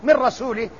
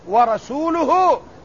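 First: The word ends with an 'i' vowel. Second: The word ends with a 'u' vowel. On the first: God disowns His messenger. The speaker calls it wrong. "والله لا يتبرأ من رسوله" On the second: The messenger also disowns the polytheists. The speaker calls it right. "ورسوله مبتدأ"

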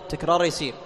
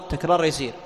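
The two takes are said the same way.

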